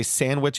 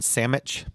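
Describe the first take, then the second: First: Said in the usual way. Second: Sandwich said as "SAM-itch"; slurred variant pronunciation. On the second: Shown as a demonstration. Co-host showing how people say it, sandwich as "sammitch". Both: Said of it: "how people say sandwich and sandwich".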